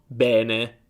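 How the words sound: The first E is an open vowel. This is the pronunciation in Rome, Florence and elsewhere. "loro dicono bene"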